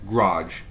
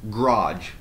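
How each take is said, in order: No difference in how they are said.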